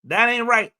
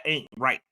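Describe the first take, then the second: First: "That ain't right" said higher and louder, "right" hit hard; emphatic. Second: Said in the usual way. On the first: Shown as a demonstration. Scene: showing how a raised voice insists something is wrong, emphatic. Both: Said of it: "trying to emphasize the fact that".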